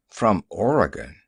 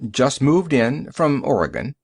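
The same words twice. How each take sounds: First: "Oregon" lower, falling at the end; doubtful echo. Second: "Oregon" offered with a lifted end; explain, letting "Oregon" rise at the finish; explaining answer. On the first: Driver questions newcomer's origin, "Oregon" low and doubtful. Driver echoes the stranger's answer. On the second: Stranger explains to the driver, "Oregon" rising tentatively. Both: Acted.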